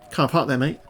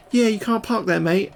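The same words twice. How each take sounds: First: Said in the usual way. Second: Imitating a small daughter, high-pitched; Mini Rusty. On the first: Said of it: "I'm like". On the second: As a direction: pipe up like a kid copying dad. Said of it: "and then Mini Rusty, she was like".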